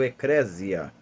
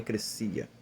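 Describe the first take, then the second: First: The middle consonant is a buzzing z sound. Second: The middle consonant is a hissing s sound. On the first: This is the form some people know it by. "para alguns que conhecem dessa forma" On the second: This follows the original Greek sound. "o S no grego não tem som de Z como no nosso português, por isso eu falo eclesia"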